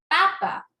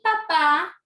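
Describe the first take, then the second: First: The stress is on the second-to-last syllable. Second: The stress is on the last syllable. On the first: It means a potato. "está en la penúltima" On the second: It means a father. "¿escuchan la diferencia?"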